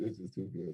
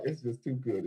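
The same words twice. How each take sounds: First: It's just too good dropped soft and low; softer echo. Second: Said in the usual way. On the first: Real, not acted. Savoring the deal to the crowd, softly repeating it. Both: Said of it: "repeated softer".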